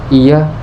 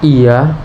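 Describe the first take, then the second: First: The vowel has normal short length. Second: The vowel is stretched out long. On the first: The speaker is firm. "bisa terdengar tegas" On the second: The speaker is doubtful or reluctant. "untuk menunjukkan ragu ataupun malas"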